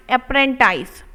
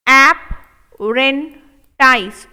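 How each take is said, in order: First: Said in the usual way. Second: Stretched very slow, syllable by syllable; slow drawn-out model. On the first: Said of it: "normal repeat after slow take". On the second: Shown as a demonstration. Teacher stretching the word slowly for students. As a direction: spell it out slowly for the class. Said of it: "teacher drills slow model take".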